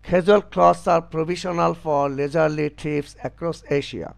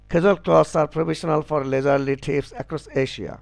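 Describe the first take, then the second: First: The sentence is read at an ordinary pace. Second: The sentence is read as fast as possible.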